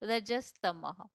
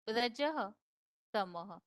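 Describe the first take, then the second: First: The words are run together into one. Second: The words are said as two separate words. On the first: "देखा अभी उच्चारण" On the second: "श्लोक का संधि विच्छेद है"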